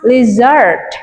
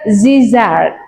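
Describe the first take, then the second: First: The word begins with an L sound. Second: The word begins with a Z sound. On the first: The speaker calls it right. "how to pronounce lizard?" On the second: The speaker calls it wrong. "not zizard"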